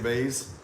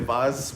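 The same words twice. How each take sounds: First: It is said in an American accent. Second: It is said in a British accent.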